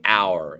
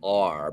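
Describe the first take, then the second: First: The word rhymes with 'hour'. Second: The word rhymes with 'are'. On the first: The speaker calls it right. "remind my brain to say hour" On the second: The speaker calls it wrong. "instead of R because I'm a Jersey guy"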